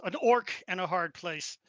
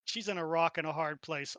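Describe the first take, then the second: First: Orc punched louder for the pun; stress on orc. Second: Said in the usual way. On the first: Real, not acted. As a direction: lean on the word orc. Pun swapping rock for orc.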